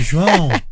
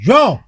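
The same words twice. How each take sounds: First: The name is called in a soft, gentle tone. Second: The name is called in a heavy, harsh tone. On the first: The caller is being easy on the person called. "É o João que você pega mais leve" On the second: The caller is being hard on the person called. "É o João que você pega mais pesado"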